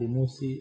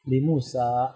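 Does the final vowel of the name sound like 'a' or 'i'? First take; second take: i; a. First: The name ends with an 'i' vowel. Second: The name ends with an 'a' vowel. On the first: The speaker calls it wrong. "bukan li Musi" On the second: The speaker calls it right. "huruf sa-nya tetap fathah"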